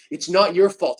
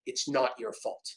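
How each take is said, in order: First: Said in the usual way. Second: Whispered to self in mirror. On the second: Retold or imitated. To himself in the mirror, whispered. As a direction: breathe it under your breath.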